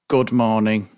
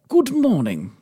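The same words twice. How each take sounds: First: It is said in an ordinary, natural voice. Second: It is said in a clipped, old-fashioned broadcaster voice.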